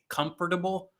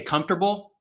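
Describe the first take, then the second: First: Every syllable is pronounced just as it is spelled. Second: The word is said in a casual, shortened way. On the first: The speaker calls it wrong. "once I knew how it was spelled, I feel like now I always say comfortable, which is awkward and unnecessary" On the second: The speaker calls it right. "I used to say comfortable, like I, you know, it was comfortable and easy"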